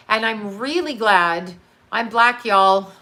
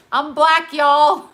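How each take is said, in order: First: Said in the usual way. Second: Louder and higher, a proud shout-out; excited. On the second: Acted. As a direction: belt it out playfully. Punchy repeat of her joke.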